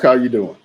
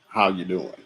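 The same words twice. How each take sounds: First: It is asked as a casual greeting. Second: It is asked earnestly, really wanting to know.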